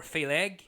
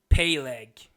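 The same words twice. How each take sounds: First: Phaleg said FAY-leg, questioning. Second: Peleg said PAY-leg, hard P. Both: Shown as a demonstration. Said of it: "I think that's how you say it".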